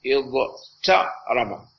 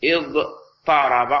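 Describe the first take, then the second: First: اضترب said very slowly with a plain T sound, not emphatic; unassimilated ta. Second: اضطرب drawn out slowly with a heavy emphatic Ṭ after the ḍād. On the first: Teacher showing students the wrong form: اضترب, slow with a plain T. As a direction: spell out اضترب slowly with a light dental T. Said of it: "فسوف تقول اضت". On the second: Teacher giving students the correct form: اضطرب, slow with an emphatic Ṭ. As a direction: stretch اضطرب slowly, making the ṭ thick and emphatic. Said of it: "فسوف تقول". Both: Shown as a demonstration.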